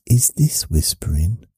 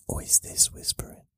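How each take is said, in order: First: Said in the usual way. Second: True voiceless whisper. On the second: Shown as a demonstration. Showing viewers which one is whispering, whispered. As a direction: whisper it, all breath. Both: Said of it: "Which is whispering?".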